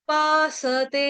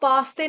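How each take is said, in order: First: The s is full, with a vowel after it. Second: The s is clipped with no vowel after it. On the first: The speaker calls it right. "स आपका जो है वो पूरा है" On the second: The speaker calls it wrong. "इसको पास्ते नहीं बोलेंगे, पास्ते बोलने से क्या हो जाएगा, स आपका हलंत हो जाएगा"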